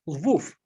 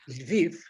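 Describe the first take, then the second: First: The city name is said in the Polish form. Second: The city name is said in the Ukrainian form. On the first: This is the name used by Poles. "that would be the Poles" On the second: This is the name used by Ukrainians. "that's the Ukrainians"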